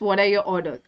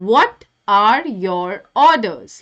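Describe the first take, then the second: First: The line is said plainly, without extra force. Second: The line is said with heavy, forceful emphasis. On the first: The speaker calls it wrong. "It's not like this" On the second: The speaker calls it right. "बहुत stress दे के बोला जा रहा है, like this"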